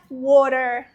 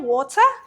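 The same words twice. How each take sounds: First: It is said with an American English accent. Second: It is said with a British English accent. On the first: "kalau orang Amerika bilangnya water" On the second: "orang Inggris bilangnya water"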